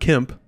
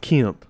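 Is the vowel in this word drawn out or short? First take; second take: short; drawn out. First: The vowel is short and clipped. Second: The vowel is drawn out and elongated. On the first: The speaker calls it wrong. "it's not Kemp" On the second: The speaker calls it right. "that's drawn out elongated vowel sound"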